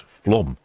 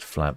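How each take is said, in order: First: "flom" with a rounded O for the A; corrected pronunciation. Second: "flam" with a short English A; Anglicised "flam", as in "lamb"; mistaken pronunciation. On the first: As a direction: say "flom", rhyming with "Tom". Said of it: "Is it more like flom?". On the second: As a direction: say "flam" as spelt, rhyming with "ham". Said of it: "so it's flom". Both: Shown as a demonstration.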